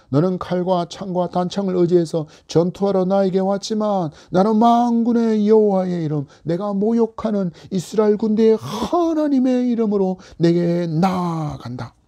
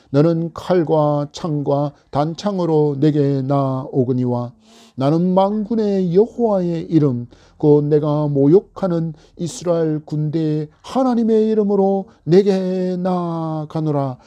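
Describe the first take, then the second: First: Bold declaration. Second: Scripture reading. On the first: Acted. David facing Goliath, bold defiant declaration. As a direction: declare it fearlessly to the giant. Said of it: "다윗이 담대하게 선언합니다". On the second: Shown as a demonstration. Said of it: "사십오 절의 말씀입니다".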